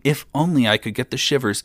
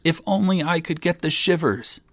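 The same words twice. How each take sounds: First: High-pitched repeated wish; wishful lament. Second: Much higher, mounting wish; insistent lament. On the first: Young king endlessly wishing to shiver, lamenting. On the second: Young king repeating his endless wish, more insistent lament. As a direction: repeat the lament, pitched right up. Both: A narrator's reading. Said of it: "kept on saying".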